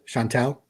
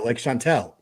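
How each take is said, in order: First: The last syllable has an 'ah' vowel. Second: The last syllable has an 'eh' vowel. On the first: The speaker calls it wrong. "it's more of an A sound at the end" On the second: The speaker calls it right. "like E L"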